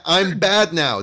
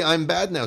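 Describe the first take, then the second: First: High, loud cartoonish villain line; mock "I'm bad now" sketch voice. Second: Quicker, lighter echo of the high line; "I'm bad now" sketch. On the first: Friend quotes the sketch to the host, high mock villain voice. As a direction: ham up the bad-guy confession, pitched high. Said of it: "they're doing your sketch". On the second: Friend names the sketch a second time, lighter mock voice. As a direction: toss off the sketch catchphrase again. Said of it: "They were doing the".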